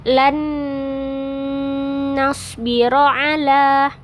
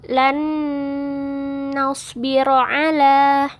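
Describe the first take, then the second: The two takes are said the same way.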